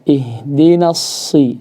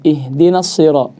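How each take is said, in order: First: The s sound is held a moderate length. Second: The s sound is held too briefly. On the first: The speaker calls it right. "Yang benar adalah tepat" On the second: The speaker calls it wrong. "jangan kurang"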